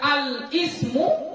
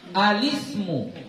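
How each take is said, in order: First: The l is cut off before a separate i. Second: The l runs straight into the following i. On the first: The speaker calls it wrong. "maka ini bacaan yang salah" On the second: The speaker calls it right. "Sukunnya nggak dibaca lagi"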